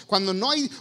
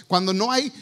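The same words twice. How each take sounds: The two takes are said the same way.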